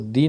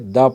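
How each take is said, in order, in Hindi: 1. स्वर लंबी 'ee' ध्वनि है। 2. स्वर छोटी 'uh' ध्वनि है। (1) "टी एच ई को दी ना पढ़ करके" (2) "द पढ़ा जाएगा"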